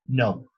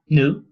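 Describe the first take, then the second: First: The vowel glides from a rounded o start. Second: The vowel glides from a schwa-like start. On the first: "in America with a O" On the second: "In British with a schwa"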